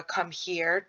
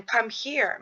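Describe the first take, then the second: First: Said in the usual way. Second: "Come here" lifted, "come" stressed with a falling end; calling a child. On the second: Shown as a demonstration. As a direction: beckon a toddler gently. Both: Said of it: "to kind of show a".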